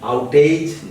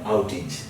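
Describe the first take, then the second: First: The ending is said like the word age. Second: The ending is said as a short idge. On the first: The speaker calls it wrong. "But when you say outage" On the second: The speaker calls it right. "no, outage"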